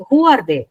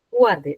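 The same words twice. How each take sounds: First: Asked louder, pressing the listeners; a rising call to the audience; emphatic question. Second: A musing inward repeat; lower echo. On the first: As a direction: throw the question out to the hall. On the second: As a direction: let the question sink in, lower. Question repeated, echoed softer. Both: Real, not acted.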